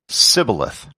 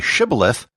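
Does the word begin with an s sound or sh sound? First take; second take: s sound; sh sound. First: The word begins with a plain s sound. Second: The word begins with a sh sound. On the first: This marks the speaker as an outsider. The speaker calls it wrong. "they would say sibboleth" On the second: This is the password as it should be said. The speaker calls it right. "When they tried to say shibboleth"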